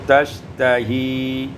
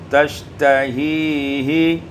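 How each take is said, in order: First: The word ends without the extra h syllable. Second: The word ends with an extra h syllable.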